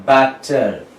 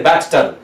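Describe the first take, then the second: First: "batter" with just one t sound; single consonant. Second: "batter" with both t's sounded, bat-ter; doubled consonant. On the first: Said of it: "You have to say batter". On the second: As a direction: pronounce the double t in "batter" as two separate consonants. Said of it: "You cannot say batter". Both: Shown as a demonstration.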